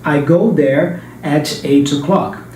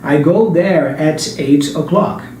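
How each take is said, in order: Both takes have the same delivery.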